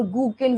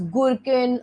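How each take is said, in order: First: "gukin" said GOO-kin, no r; alternative pronunciation. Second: "gherkin" said GUR-kin, r kept; first pronunciation option. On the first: Teacher offering students another way to say the gene, r-less GOO-kin pronunciation. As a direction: drop the r in "gukin", straight to the k. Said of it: "you can pronounce it as gherkin or". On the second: Teacher offering students one way to say the gene, GUR-kin pronunciation. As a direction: say "gherkin" with an r before the k. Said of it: "you can pronounce it as". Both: Shown as a demonstration.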